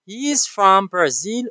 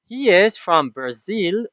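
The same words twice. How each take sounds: First: Slow line with "He is" merged to he's; contraction. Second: Slow, "He is" as two words; full form. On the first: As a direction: run "He is" into one syllable, he's. (شکل اختصاری: He is مثل he's) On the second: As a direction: keep IS separate in "He is". (شکل کامل و آهسته: He is) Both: Shown as a demonstration. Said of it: "the full form and the contraction form".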